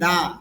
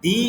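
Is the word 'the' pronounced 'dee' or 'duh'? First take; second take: duh; dee. First: The vowel is a short 'uh' sound. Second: The vowel is a long 'ee' sound. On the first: The next word begins with a consonant sound. "এখানে আবার বলতেছি দা" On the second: The next word begins with a vowel sound. "ভাওয়াল সাউন্ডের পূর্বে যদি দি টিএইসি আসে তখন উচ্চারণটা হবে দি"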